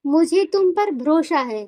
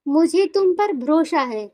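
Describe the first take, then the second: First: It is said in a flat, even tone. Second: The same.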